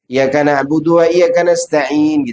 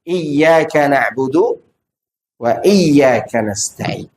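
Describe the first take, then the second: First: The y sound in iyyaka is short and single. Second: The y sound in iyyaka is held and doubled. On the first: The speaker calls it wrong. "Itu menunjukkan dia tidak mentasydid ya-nya" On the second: The speaker calls it right.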